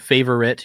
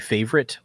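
First: The word is said with three syllables. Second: The word is said with two syllables. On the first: The speaker calls it right. "you're saying three syllables" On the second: The speaker calls it wrong. "Americans just say favorite, like with two"

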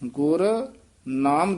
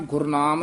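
First: There is a break after the first word. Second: The two words run together as one word. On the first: The speaker calls it right. "ਗੁਰ ਤੇ ਨਖੇਰ ਕੇ ਪੜਨਾ" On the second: The speaker calls it wrong. "Gurnam ਨਹੀਂ ਕਹਿ ਦੇਣਾ"

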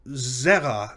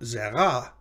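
First: The stress is on the first syllable. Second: The stress is on the second syllable. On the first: The speaker calls it right. "the first of two of its two syllables is accented" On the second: The speaker calls it wrong. "not zera"

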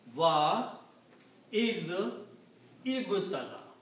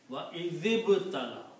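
First: Each of the three words is said apart. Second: The dh sound runs straight into the b. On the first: "Separately, it is" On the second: "The recitation should go from zal to ba"

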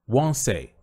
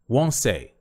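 Both takes have the same delivery.

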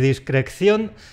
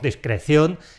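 First: It is said with an extra k sound. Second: It is said with a single c sound. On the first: The speaker calls it wrong. "No quiero oír" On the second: The speaker calls it right. "con una sola C"

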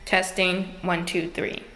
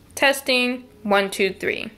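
First: The voice sounds echoey, with clear room reflections. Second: The voice sounds dry, with little room echo. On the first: The speaker calls it wrong. "you hear the echo. Hear it?" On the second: The speaker calls it right. "pick a space that has carpet because it's going to sound better"

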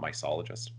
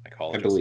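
First: The c is said as a soft s sound. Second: The c is said as a hard k sound. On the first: The speaker calls it wrong. "Not mycologist" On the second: The speaker calls it right. "Mycologist is a hard C"

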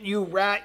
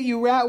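First: The voice sounds angry and hostile. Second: The voice sounds excited and delighted. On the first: "I'm acting very angry right now" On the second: "you might guess excited"

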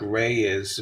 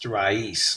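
First: It sounds like English "ray is". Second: It is said the Spanish way, "ra-eez". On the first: The speaker calls it wrong. "People say it like Ray is" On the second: The speaker calls it right. "in Spanish, it would be pronounced raíz"

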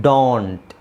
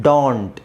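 Both takes have the same delivery.

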